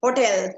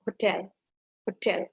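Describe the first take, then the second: First: Hotel loud on the first syllable, H weak; Hotel with a loud front stress; wrong stress. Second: Hotel with stress on the second syllable; light first syllable in hotel, weight on TEL; correct stress. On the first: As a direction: say Hotel as O-tel, punched. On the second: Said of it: "That's exactly how you pronounce it". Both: Shown as a demonstration.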